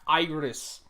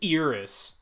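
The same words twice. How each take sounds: First: The name starts with an 'eye' vowel sound. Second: The name starts with a different vowel sound. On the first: The speaker calls it right. "They pronounce it like it starts with an A. It's A I R I" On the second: The speaker calls it wrong. "not fucking Iris"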